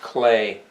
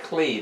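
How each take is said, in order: First: The vowel sounds like 'ay'. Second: The vowel sounds like 'ee'. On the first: The speaker calls it right. "It's pronounced Clay. The E's are an A sound" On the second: The speaker calls it wrong. "that's not how it's pronounced"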